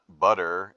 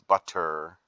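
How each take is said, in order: First: The T in the middle is softened. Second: The T in the middle is clearly pronounced. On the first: The speaker calls it wrong. "it's not butter" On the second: The speaker calls it right. "pronounce your T's"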